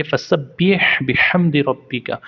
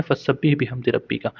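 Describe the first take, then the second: First: फसब्बिह with ह breathed from the throat; Arabic recitation. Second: फसब्बिह with a light, plain ह; Arabic recitation. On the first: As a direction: recite रब्बिका with a proper throat ह. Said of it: "तो फिर आप पढ़ेंगे". (हलक से ह निकालकर पढ़ें) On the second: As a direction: recite फसब्बिह बिहम्दि रब्बिका without throat ह. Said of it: "अगर आपको हा पढ़ना आता होगा". (सामान्य ह वाला उच्चारण) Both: Shown as a demonstration.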